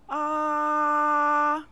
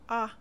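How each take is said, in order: First: The pitch stays high and level. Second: It is short and light, without emphasis. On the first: "The first tone is a high, steady sound" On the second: "spoken briefly without any special emphasis"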